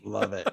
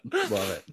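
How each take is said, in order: First: Said in the usual way. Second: A silly high-pitched echo; playful falsetto repeat; squeaky high love it. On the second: Pretend. Repeating a reaction twice.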